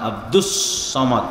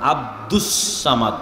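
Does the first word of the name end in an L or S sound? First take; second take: S sound; S sound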